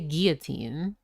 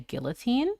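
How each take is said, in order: First: The middle consonant sounds like a Y. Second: The middle consonant sounds like an L. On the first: "two L's is pronounced like a Y. So like when I, because I say guillotine" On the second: "a lot of people I know just say"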